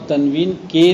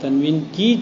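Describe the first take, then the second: First: "تنوین کے" with the wrong word "کے" set apart and stressed. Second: "تنوین کی" with the corrected word "کی" picked out; stress on کی. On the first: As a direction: lean on "کے" in "تنوین کے" to flag it. ("تنوین کے" میں "کے" پر زور) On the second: ("تنوین کی" میں "کی" پر زور) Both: Shown as a demonstration. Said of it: "تنوین کے نے".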